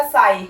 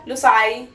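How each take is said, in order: First: ਸਾਈ with no "lu" in front; just the bare word ਸਾਈ, sai; "sai" alone. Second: ਲੁਸਾਈ with an extra "lu" before sai; misheard "lo sai". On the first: Teacher corrects what learners hear, ਸਾਈ said on its own. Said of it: "ਉਹ ਬੋਲਦਾ ਇਕੱਲਾ ਸਾਈ". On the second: Teacher shows what learners think they hear, ਲੁਸਾਈ with an added first syllable. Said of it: "ਸਾਨੂੰ ਸੁਣਦਾ ਹੈ ਲੁਸਾਈ". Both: Shown as a demonstration.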